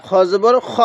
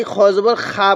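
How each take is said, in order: First: খ with a short vowel; correct short vowel. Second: খা drawn out with a long a; wrong long vowel. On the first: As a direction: say খ short, no long a. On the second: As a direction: say খা with an open long a, the mistake. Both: Shown as a demonstration. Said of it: "না, খ জবর খ পড়ব".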